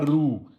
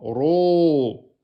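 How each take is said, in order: First: The r syllable is thin, with an oo-like vowel. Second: The r syllable is heavy, with an o-like vowel. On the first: The speaker calls it wrong. "c'est pas rou" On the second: The speaker calls it right. "il est emphatique. Donc c'est ro"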